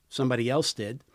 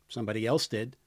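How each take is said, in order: Both takes have the same delivery.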